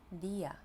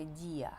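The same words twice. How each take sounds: First: "día" with a hard, unsoftened d, almost like dy-a. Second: "día" with the d softened before the i, as wrong Ukrainian-style dzia. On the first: Teacher modelling correct Spanish, "día" with hard d. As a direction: keep the d of "día" hard before the i. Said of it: "Треба сказати". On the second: Teacher showing learners the mistake, "día" with softened d. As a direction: soften the d of "día" into a palatal sound. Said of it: "Тому не можна сказати". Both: Shown as a demonstration.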